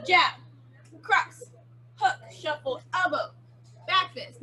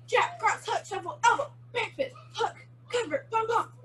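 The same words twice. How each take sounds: First: Slow punch count, a pause after each move. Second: Quick, high-pitched combo calls; sped up. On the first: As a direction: call each move separately, pitched up. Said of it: "go kinda slow and then we'll speed it up". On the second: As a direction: rattle off the moves for the class, high. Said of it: "we're gonna speed it up". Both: Shown as a demonstration.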